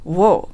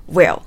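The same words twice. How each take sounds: First: "will" reduced to "wol", like "wo"; weak form of will. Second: "will" in full, with clear i vowel; strong form of will. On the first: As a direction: weaken "will" to a dark "wo'l". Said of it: "弱形ではwillと発音します". (「will」を弱形で「ウォゥ」と) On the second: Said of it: "強形ではwill". (「will」を強形ではっきり「ウィル」と) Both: Shown as a demonstration.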